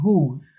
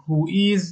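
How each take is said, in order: First: "whose" as who's, one syllable; contracted form. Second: "who is" said as two separate words; full form. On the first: Teacher shows learners the short question word, one-syllable "whose". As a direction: say "whose" with the z joined straight on. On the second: Teacher shows learners the long question word, "who is" uncontracted. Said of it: "به جای اینکه بگیم". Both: Shown as a demonstration.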